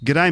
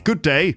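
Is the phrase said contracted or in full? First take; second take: contracted; full. First: The two words are squeezed into one syllable. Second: Both words are said in full. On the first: "But they say g'day" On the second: "It basically means good day"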